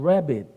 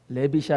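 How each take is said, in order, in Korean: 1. 강한 영어 R 소리로 시작합니다. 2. 한국식의 평평한 자음으로 시작합니다. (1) "R 사운드를 잘해야죠" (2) "레빗이 아니고"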